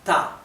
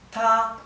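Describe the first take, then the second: First: The pitch is not high and level. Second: The pitch stays high and level. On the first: The speaker calls it wrong. "no es ta" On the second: The speaker calls it right. "lleva encima de la A el tono alto, que no varía"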